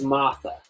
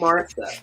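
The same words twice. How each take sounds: First: The R sound in the middle is dropped. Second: The R sound in the middle is pronounced. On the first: The name refers to the speaker's aunt. "I do not pronounce the R in Martha" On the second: The name is said in general. "I can say the name Martha"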